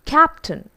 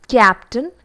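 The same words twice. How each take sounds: First: CAPTAIN with open short A, no Y glide; captain, properly modelled; correct English captain. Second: CAPTAIN said as "kyaptan"; captain with intrusive Y; wrong pronunciation of captain. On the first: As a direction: say CAPTAIN with K straight into the vowel. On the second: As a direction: slip a Y after the K in CAPTAIN. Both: Shown as a demonstration. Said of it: "It's not captain".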